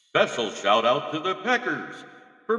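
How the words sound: It is read in a put-on character voice.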